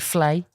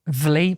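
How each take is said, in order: First: The syllable starts with a voiceless F sound. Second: The syllable starts with a voiced V sound. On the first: The speaker calls it right. "but it's actually flay" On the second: The speaker calls it wrong. "spelled V L E E"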